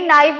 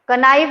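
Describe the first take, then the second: First: No k sound is heard before the n. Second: A k sound is heard before the n. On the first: The speaker calls it right. "नाइफ होता है" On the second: The speaker calls it wrong. "कनाइफ नहीं"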